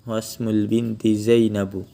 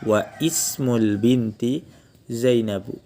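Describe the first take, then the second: First: Wa runs straight into smul with no break. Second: The vowel of ismul starts separately after wa. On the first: The connecting hamzah is skipped. "boleh langsung dilanjut" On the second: This is the original full form.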